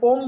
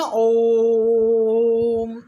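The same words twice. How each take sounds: First: Said in the usual way. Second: ओम with the ओ held three times as long, chant-like; prolonged pluta vowel. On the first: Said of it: "जो ओम बोलते हैं ना". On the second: Shown as a demonstration. Teacher demonstrating pluta to students, ओम drawn out long. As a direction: stretch the ओ of ओम long, then close on म. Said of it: "ऐसे, यानी कि जो साधारण ओ है उसके पीछे ये तीन लगा है".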